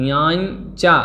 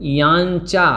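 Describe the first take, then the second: Both takes have the same delivery.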